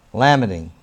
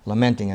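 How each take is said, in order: First: "lamenting" said LAM-uh-ting, first syllable stressed, no N; "lamenting" slipped as LAM-eh-ting; "lamenting" said wrongly as LAM-uh-ting; mispronounced lamenting. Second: "Lamenting" said luh-MEN-ting, stress on second syllable; "Lamenting" fixed with the N and stress on MEN; "Lamenting" corrected to luh-MEN-ting. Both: Real, not acted. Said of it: "Lamenting, I meant to say".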